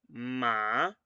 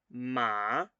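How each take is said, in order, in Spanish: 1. El tono empieza en medio y sube. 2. El tono empieza en medio y sube.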